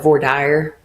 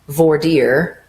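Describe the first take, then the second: First: It uses the Texan regional pronunciation. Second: It uses another state's regional pronunciation. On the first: This is how people in Texas say it. "we call it voir dire here in Texas" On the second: This is how people in some other states say it. "some people in some states say"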